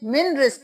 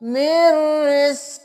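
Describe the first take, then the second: First: The n is pronounced separately before the r. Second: The n merges into a doubled r sound. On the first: The speaker calls it wrong. "मिन रिज़्क़ नहीं करना" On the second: The speaker calls it right. "मीम को रॉ के साथ मिलाएं तशदीद है"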